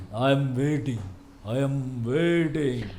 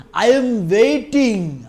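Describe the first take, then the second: First: Lower, very slow hero punch line; low menacing one liner. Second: Loud, very slow hero punch line; swaggering movie one liner. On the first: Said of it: "இந்த மாதிரி ஒரு punch ஒன்று சொல்லியிருக்காரு". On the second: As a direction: drag out I am waiting like a hero. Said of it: "எங்கட தளபதியோட punch dialogue". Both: Retold or imitated.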